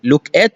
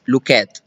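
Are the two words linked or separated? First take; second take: separated; linked. First: The two words are said separately. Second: The two words run together as one.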